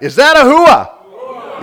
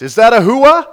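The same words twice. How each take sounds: First: Drawn-out, high, powerful shout; more power. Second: Raised, loud call to the crowd; loud rallying question. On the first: Preacher demands more power from congregation, drawn-out rousing shout. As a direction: roar the question slowly to fire up the crowd. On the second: Preacher asks congregation for a hua, loud call. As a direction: call out for their response. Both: Shown as a demonstration. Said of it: "little more power behind that".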